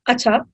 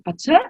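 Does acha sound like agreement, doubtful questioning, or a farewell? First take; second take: farewell; doubtful questioning. First: It is said as a parting farewell. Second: It is said as a doubtful question. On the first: The speaker is saying goodbye. "it could be a bye" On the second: The speaker doubts what was said. "it could be are you sure?"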